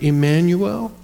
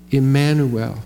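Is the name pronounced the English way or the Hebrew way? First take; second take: English; Hebrew. First: It is pronounced the usual English way. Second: It is pronounced the original Hebrew way. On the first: "that's kind of how we pronounce it" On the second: "Here's what the Hebrew sounds like"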